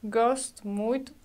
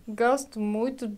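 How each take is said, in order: The two takes are said the same way.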